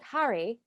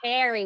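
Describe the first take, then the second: First: It is said in a British accent. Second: It is said in an American accent, hard A. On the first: "if you're speaking it in it with a British accent, it would sound more like that" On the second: "we all say it Harry with a hard A"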